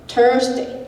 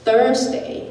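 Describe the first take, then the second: First: The word begins without a th sound. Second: The word begins with a th sound. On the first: The speaker calls it wrong. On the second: The speaker calls it right.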